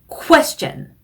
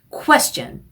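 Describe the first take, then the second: Both takes have the same delivery.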